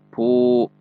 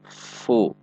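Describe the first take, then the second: First: The first sound is made with both lips. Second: The first sound uses upper teeth on lower lip. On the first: The speaker calls it wrong. "bukan pu" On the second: The speaker calls it right. "Pertemuan antara gigi seri atas dengan bibir bawah bagian dalam"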